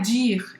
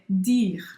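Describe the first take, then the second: First: The first sound is a soft dj sound. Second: The first sound is a plain, hard d. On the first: The speaker calls it wrong. "Ele não é dire" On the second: The speaker calls it right. "o D não é chiado"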